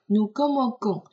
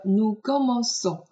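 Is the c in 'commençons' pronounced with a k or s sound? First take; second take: k; s. First: The c is pronounced as a hard k sound. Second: The c is pronounced as a soft s sound. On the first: The speaker calls it wrong. "如果没有这个软音符号，你就会读成" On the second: The speaker calls it right. "其实就是为了让它继续发s 的音"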